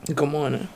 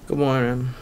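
First: It is said with lively enthusiasm. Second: It is said flatly, without enthusiasm.

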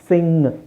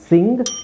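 First: The word ends in a nasal with no g. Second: The word ends with a clear hard g sound. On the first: The speaker calls it right. "Actually ಅದರ ಉಚ್ಚಾರಣೆ ಏನು?" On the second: The speaker calls it wrong. "ಅಲ್ಲಿ ಗ ಗ ಬರುತ್ತೆ"

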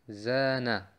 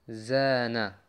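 Both takes have the same delivery.

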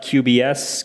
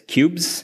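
First: The name is spelled out letter by letter. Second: The name is said as one word. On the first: The speaker calls it wrong. "It is not QBS" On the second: The speaker calls it right. "The official pronunciation is cubes"

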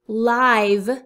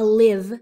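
First: The vowel is a long 'eye' sound. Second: The vowel is a short 'ih' sound. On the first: It means happening in real time. The speaker calls it right. "She is giving a live speech" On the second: It means to be alive or reside. The speaker calls it wrong. "not a live speech"

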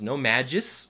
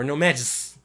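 First: An extra vowel is heard before the final s. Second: No vowel is heard before the final s. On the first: "like with an extra I" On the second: "with no vowel at all"

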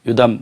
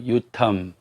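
First: The middle consonant is a soft 'd' sound. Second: The middle consonant is an aspirated 't' sound. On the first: This is the traditional Korean reading of the name. "우리말에서 뭐 요담이라고 했습니다만" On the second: This is the original Hebrew reading of the name. "히브리에서 읽으면 요탐이 되겠고요"

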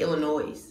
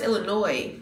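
First: The final s sound is pronounced. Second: The final s sound is silent. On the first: "But I say Illinois" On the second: "It's pronounced Illinois, but the S at the end is silent"

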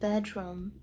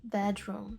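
No difference in how they are said.

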